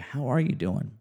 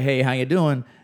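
First: It sounds like a sincere, caring question. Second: It sounds like a quick, casual passing greeting.

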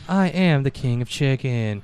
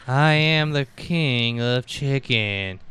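First: It is said in the speaker's ordinary accent. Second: It is said in a Southern American accent.

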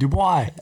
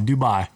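First: The last syllable has a w sound, like bwah. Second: The last syllable sounds like bye. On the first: The speaker calls it wrong. "You put like a random W in there" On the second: The speaker calls it right. "Oh, it's bye"

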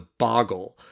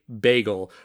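First: The first vowel sounds like 'bah'. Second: The first vowel sounds like 'bay'. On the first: "she could only refer to it as a boggle" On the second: "We really tried to get her to say bagel"

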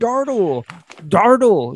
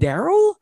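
First: The name is said with a t sound, Dartle. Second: The name is said without a t sound, Daryl. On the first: The speaker calls it wrong. "She kept saying Dartle" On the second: The speaker calls it right. "you mean Daryl?"

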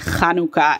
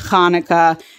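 First: The word has an Israeli Hebrew pronunciation. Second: The word has an American Jewish pronunciation. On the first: "Israelis say Hanukkah"

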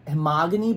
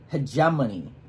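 First: The middle consonants come out as m then g. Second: The middle consonants come out as g then m. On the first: The speaker calls it wrong. "but it's not Hemogany" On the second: The speaker calls it right. "It's Hegemony"

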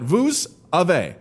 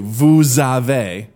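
First: The s of vous is silent before avez. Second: The s of vous is linked into avez. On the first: The speaker calls it wrong. "not vous Ave" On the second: The speaker calls it right. "you slur it together"

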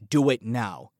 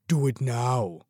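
First: It is said in the speaker's ordinary voice. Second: It is said in an imitated Austrian-style accent.

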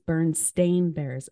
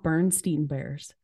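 First: The name ends with a 'stain' sound. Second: The name ends with a 'steen' sound. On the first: The speaker calls it right. "It's Bernstein Bears, and it's S-T-A-I-N" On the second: The speaker calls it wrong. "It's not Bernstein Bears"

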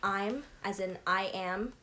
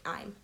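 First: It is said as two separate syllables. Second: It is said as one contracted syllable. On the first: "as in I am" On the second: "you omit the A and just make it I'm"

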